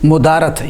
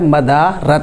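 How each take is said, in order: First: The first vowel is u. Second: The first vowel is a. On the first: The speaker calls it wrong. "ये मीम के ऊपर पेश पढ़ना गलत है" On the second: The speaker calls it right. "असल लफ्ज़ होता है मदारत"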